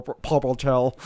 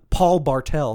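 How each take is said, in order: First: "Paul Bartel" tripped over, sounds running together; tongue-tied name. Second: Said in the usual way. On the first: Real, not acted. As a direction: stumble over "Paul Bartel", consonants muddled. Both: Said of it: "That was hard to say".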